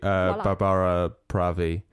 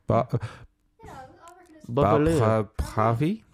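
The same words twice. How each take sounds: First: The name is said with an English accent. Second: The name is said with a French accent. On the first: "That's not how you say her name" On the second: "that was got a French accent"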